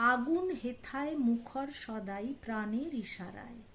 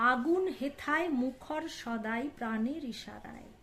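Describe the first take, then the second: The two takes are said the same way.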